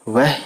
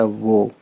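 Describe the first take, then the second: First: The word ends in an 'ah' vowel. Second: The word ends in an 'o' vowel. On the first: The speaker calls it wrong. "वह नहीं कहते" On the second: The speaker calls it right. "वाव पे पेश है तो हो गया वो"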